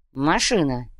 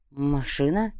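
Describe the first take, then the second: First: Машина. said with falling tune; Машина. falling, confirmed; confirming. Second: Low soft rising Машина?; unsure Машина? rising; questioning. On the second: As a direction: ask Машина? quietly, rising. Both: Shown as a demonstration.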